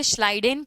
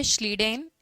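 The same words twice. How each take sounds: First: श्लाइडेन with first vowel like "eye"; alternative pronunciation. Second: Said in the usual way. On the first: Shown as a demonstration. Teacher showing students how many read the name, alternative pronunciation of श्लाइडेन as "SHLY-den". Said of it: "कई लोग उसे श्लाइडेन पढ़ते हैं".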